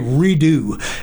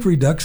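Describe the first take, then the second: First: The word is said with a French-sounding ending. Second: The word is said with a plain English ending. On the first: "it sounds kind of cool. It sounds a little French" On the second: "I think Redux is right"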